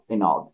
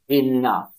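First: The word ends with a hard G sound. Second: The word ends with an F sound. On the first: The speaker calls it wrong. "not enough" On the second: The speaker calls it right. "we pronounce it enough with an F sound"

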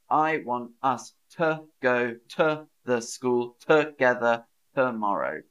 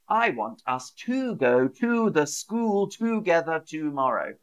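First: The unstressed vowels are reduced to schwa. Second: The unstressed vowels are pronounced fully. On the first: The speaker calls it right. "there's a lot of schwas in there" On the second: The speaker calls it wrong. "Rather than, ... No one speaks like that in the UK"

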